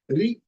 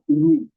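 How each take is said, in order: First: The vowel sounds like 're'. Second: The vowel sounds like 'ru'. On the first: This is how it can be said in Hindi. The speaker calls it wrong. "they start pronouncing it Re, Re, Re. That is wrong" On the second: This is how it is said in Sanskrit. The speaker calls it right. "Sanskrit, it is Ru, Ru"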